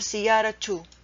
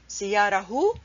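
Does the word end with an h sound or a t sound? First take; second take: t sound; h sound. First: The word ends with a t sound before the vowel. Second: The word ends with an h sound before the vowel. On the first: The speaker calls it right. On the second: The speaker calls it wrong.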